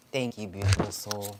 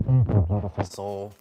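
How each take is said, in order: First: Said in the usual way. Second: Loud warm thanks. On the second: Real, not acted. Thanking a viewer on stream.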